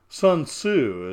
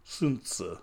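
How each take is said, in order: First: The name is said with an English pronunciation. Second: The name is said with a Chinese pronunciation. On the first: "as you would pronounce it" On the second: "as my friends in China, China would say"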